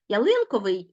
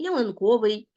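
First: Ялинковий said as ya-LYN-ko-vyi; ялинковий with the second syllable strong; stress on second syllable. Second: Ялинковий said as ya-lyn-KO-vyi; ялинковий with the third syllable strong; stress on third syllable. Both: Shown as a demonstration. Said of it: "слова з подвійним наголошенням".

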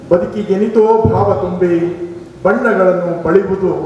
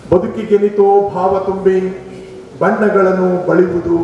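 No difference in how they are said.

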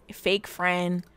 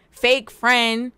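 First: Said in the usual way. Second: Louder, sassy jab; mock accusing. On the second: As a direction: call her out, teasing. Teasing a sim, said twice.

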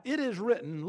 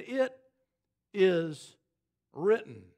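First: Said in the usual way. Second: "It" ... "is" ... "written" with long pauses between each word; solemn spaced quote. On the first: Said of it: "literally means". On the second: Shown as a demonstration. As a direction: lay down "It is written" slowly, word by word. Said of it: "it is written" literally means".

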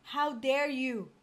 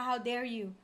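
First: "How dare you" drawn out slowly, word by word; indignant emphasis. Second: Said in the usual way. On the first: Real, not acted. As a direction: stretch "How dare you" into a slow scolding. Scolding game character, repeated slowly.

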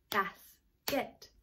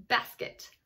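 First: "Basket" split softly as bas, pause, ket; "Basket" soft, syllable by syllable; clapped-out syllables. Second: Said in the usual way. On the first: Shown as a demonstration. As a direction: break "Basket" into two beats. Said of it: "we're gonna clap them out". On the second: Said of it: "How about basket?".

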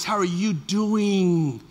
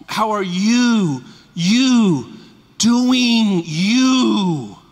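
First: Gentle voice. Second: Slow, louder heartfelt call; called out warmly. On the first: Pastor gently asking a member how they are. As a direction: ask it slowly and tenderly. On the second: Pastor calling out to members he misses. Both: Shown as a demonstration. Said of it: "Let me give you my voice".

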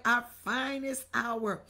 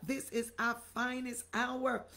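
First: OUR FINEST HOUR said loud and falling; emphatic slogan. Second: Said in the usual way. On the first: Shown as a demonstration. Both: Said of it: "Somebody write".

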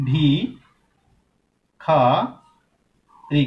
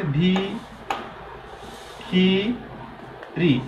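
First: ভিখারি broken into ভি, খা, রি with long pauses; ভিখারি very slow, teacher's model; syllable-by-syllable demo. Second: ভিখিরি broken into ভি, খি, রি with long pauses; ভিখিরি very slow, i in every syllable; altered pronunciation demo. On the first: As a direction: stretch each syllable of ভিখারি very slowly, full open খা. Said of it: "যখন আমি বলছি". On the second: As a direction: stretch each syllable very slowly, close খি in ভিখিরি. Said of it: "ভিখিরি বললে দেখো তো উচ্চারণের". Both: Shown as a demonstration.

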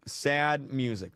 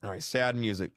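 First: Drawn-out and mournful; slow it right down. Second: Said in the usual way. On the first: Shown as a demonstration.

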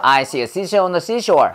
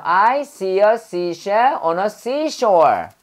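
First: Rapid tongue twister run-through; quick-fire S drill in one breath; really fast. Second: Slow, spaced-out tongue twister; deliberate teaching pace on the S words; careful S-sound drill. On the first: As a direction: rattle off "I see a seashell on the seashore". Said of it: "진짜 빨리 해봐". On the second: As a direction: say "I see a seashell on a seashore" slowly, each S distinct. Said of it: "S 발음할 때요". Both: Shown as a demonstration.

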